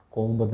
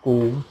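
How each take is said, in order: First: कोम्ब with the b sounded; कोम्ब as kom-buh; wrong pronunciation. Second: Loud कोम ending on m; drawn-out कोम, silent b; correct pronunciation. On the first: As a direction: say कोम्ब ending in an audible b. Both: Shown as a demonstration. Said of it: "कोम्ब नहीं है".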